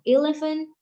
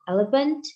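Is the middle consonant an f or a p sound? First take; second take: f; p. First: The middle consonant is an f sound. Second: The middle consonant is a p sound. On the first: This is the standard English pronunciation. The speaker calls it right. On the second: This is how Indonesian speakers say it. The speaker calls it wrong.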